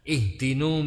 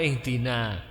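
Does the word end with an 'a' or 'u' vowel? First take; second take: u; a. First: The word ends with a 'u' vowel. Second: The word ends with an 'a' vowel. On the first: The speaker calls it wrong. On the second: The speaker calls it right.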